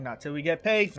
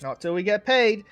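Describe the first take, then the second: First: Said in the usual way. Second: "Not till we get paid" higher and louder, landing on "paid"; louder repeat. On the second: Acted. Twin hammering home his terms to the king, louder. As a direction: repeat it with more force on "paid". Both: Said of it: "He's like".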